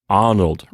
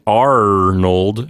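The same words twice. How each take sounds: First: The R is an open, vowel-like sound. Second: The R is said as a clear consonant. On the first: "she's saying Arnold, right, with a kind of an open sound" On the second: "[name]'s not saying Arnold"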